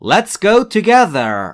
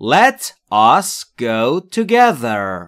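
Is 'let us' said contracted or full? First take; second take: contracted; full. First: Let and us merge into one short syllable. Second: Let and us are said as two full words. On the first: "در حالت مخفف let's go یعنی بیا بریم" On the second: "Let us go یعنی به ما اجازه بده برویم"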